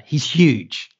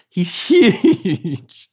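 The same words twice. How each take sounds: First: Said in the usual way. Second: Higher and louder, laughing mid-word on huge. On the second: Retold or imitated. Stressing the driver's size to the host, laughing. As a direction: break into a laugh as you say He's huge.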